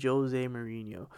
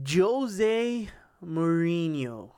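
First: Said in the usual way. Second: Slow, stretched out name, like a big reveal; drawn-out announcement. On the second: Real, not acted. Host announcing the weekend's next topic, slowly and dramatically. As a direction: draw the name out slowly for effect.

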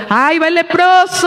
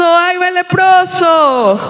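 First: Calling out. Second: Slow shout, higher, warning "leproso"; calling out. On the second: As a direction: shout it out slowly to clear the way. (grito lento y agudo de aviso: "¡Ay, va el leproso!") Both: Acted. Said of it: "tenían que estar tapados y estar gritando".

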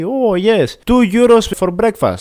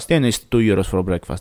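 First: Higher, slower, sing-song clerk voice announcing the price; cheery hotel clerk. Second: Lower, flat, stunned repeat of "two euros for breakfast"; disbelieving echo. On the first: Hotel clerk answering the narrator's question, higher and slower. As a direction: mimic the chirpy receptionist, drawing out the price. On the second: Narrator repeating the clerk's price back to her, disbelieving. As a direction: throw the clerk's words back, baffled. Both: Retold or imitated.

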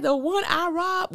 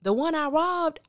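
First: High, slow disbelieving replay of the line; incredulous quote. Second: Quoting Q. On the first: Repeating Q's line to viewers in disbelief. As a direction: stretch it out in mock disbelief. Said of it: "This dude said". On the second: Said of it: "This dude says". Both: Retold or imitated.

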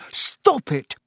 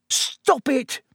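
First: Higher, sharp cry to the books. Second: Even higher repeated cry. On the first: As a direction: shout them apart, exasperated. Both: A narrator's reading. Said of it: "cried the manager".

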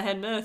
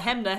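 First: "Hanmer" said HEN-muh; n before m in "Hanmer"; second pronunciation. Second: "Hamner" said HEM-nuh; m before n in "Hamner"; first pronunciation. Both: Shown as a demonstration. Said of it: "About the Hamner, Hanmer thing".

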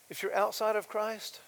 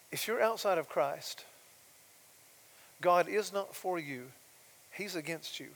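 First: Said in the usual way. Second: Softly and tenderly. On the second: Shown as a demonstration. Preacher gently telling listeners God is against them, tender. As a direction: say the hard truth tenderly. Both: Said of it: "I wanna say this softly and tenderly".

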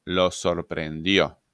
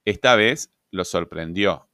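First: "lo" hit firmly, slow teacher's repeat; deliberate slowed "lo sorprendió" with weight on "lo"; slow, stressed lo. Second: Said in the usual way. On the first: Shown as a demonstration. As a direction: spell out "lo sorprendió" slowly, leaning on "lo".

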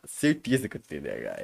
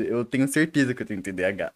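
First: Certeza said much lower and quieter; low emphatic repeat. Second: Said in the usual way. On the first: Real, not acted.

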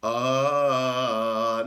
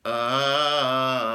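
First: Plain sung scale. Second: Sung ah with a pencil between the teeth. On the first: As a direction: open sung ah up three notes. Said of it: "just like that". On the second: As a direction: sing the ah biting a pencil. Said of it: "put the pencil in my mouth here, in between my teeth, and sing again". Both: Shown as a demonstration.

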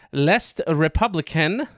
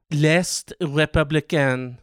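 First: French name in a mild French accent; first French attempt. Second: Slow, drawn-out French pronunciation; better French accent. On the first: Host attempting French newspaper name, mild French accent. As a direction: attempt L'Est Républicain with a light French accent. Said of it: "that one was way better". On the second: Host retrying French newspaper name, slower French accent. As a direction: savour L'Est Républicain in a French accent. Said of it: "Ooh, that one was way better". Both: Shown as a demonstration.

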